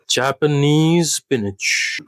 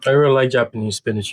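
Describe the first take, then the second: First: Drawn out, savoring each word of "Japanese spinach"; "Japanese spinach" stretched out slowly; slow dish announcement. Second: Said in the usual way. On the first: Shown as a demonstration. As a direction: present "Japanese spinach" slowly like a menu item.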